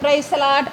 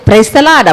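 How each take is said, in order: First: It is said coldly and grudgingly. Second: It is said warmly and heartily. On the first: The speaker does not like the person. The speaker calls it wrong. "இந்த பக்கம் இந்த praise தி Lord அப்படிம்பாங்க" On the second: The speaker likes the person. The speaker calls it right. "நம்மளுக்கு பிடிச்சவங்களா இருந்தால் நம்ம உள் மனசு"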